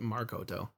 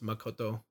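First: The first syllable has an R sound. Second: The first syllable has no R sound. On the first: The speaker calls it wrong. "You put Markoto" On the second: The speaker calls it right. "It's Makoto Shinkai"

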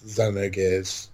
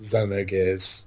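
First: The name is said in the Japanese way. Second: The same.

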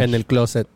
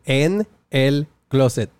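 First: The phrase is said quickly. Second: The phrase is said more slowly.

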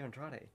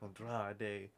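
First: The name is said with a plain English pronunciation. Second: The name is said with a Mexican Spanish pronunciation. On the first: "Just say Andrade" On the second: "You don't have to say it in this, you know, Mexican pronunciation"

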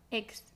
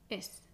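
First: The x is pronounced like g plus s. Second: The x is pronounced like a plain s. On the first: It is a more relaxed pronunciation. "más relajada" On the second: It is a widespread pronunciation in Spain. "pronunciar la X como una S"

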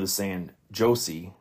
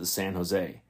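First: The J is said as a hard J sound. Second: The J is said like an H sound. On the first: The speaker calls it wrong. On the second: The speaker calls it right.

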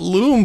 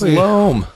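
First: The vowel is a long 'oo' sound. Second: The vowel is a long 'oh' sound. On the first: The speaker calls it wrong. "everyone calls it loom" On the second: The speaker calls it right. "but it's pronounced loam"

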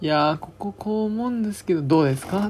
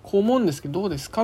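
First: It is said meekly and deferentially. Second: It is said firmly and decisively.

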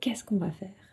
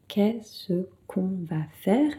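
First: It is said quickly. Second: It is said at a normal, unhurried pace.

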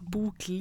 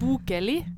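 First: The name has two syllables, no middle vowel. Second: The name has three syllables, with a middle vowel. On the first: The speaker calls it right. "Bokeli uten det" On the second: The speaker calls it wrong. "Det er ikke bokeli"

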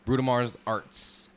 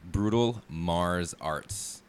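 First: The name is said quickly and run together. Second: The name is said slowly and clearly. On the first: The speaker calls it wrong. "I felt like I said that too fast the first time" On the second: The speaker calls it right. "One more time"

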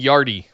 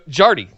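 First: The name begins with a Y sound. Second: The name begins with a hard J sound. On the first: The speaker calls it wrong. "I was saying Yardy" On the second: The speaker calls it right. "With the hard J"

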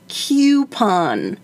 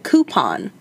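First: The first syllable does not sound like 'coop'. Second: The first syllable sounds like 'coop'. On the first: The speaker calls it wrong. "I think Adam would say coupon" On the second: The speaker calls it right. "like the way it's spelled, like a coop"

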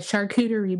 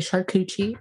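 First: The word has its standard pronunciation. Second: The word has a playful nonstandard pronunciation. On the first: The speaker calls it right. "for those who can pronounce it properly" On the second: The speaker calls it wrong. "it's funner to say charcuterie"

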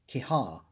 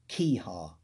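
First: The stress is on the second syllable. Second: The stress is on the first syllable. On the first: "I've slipped into the habit of emphasising the second one" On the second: "I've always put the emphasis on the first syllable of the name"

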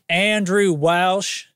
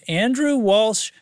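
First: The name is said in a put-on Kentucky accent. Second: The name is said in the speaker's ordinary accent.

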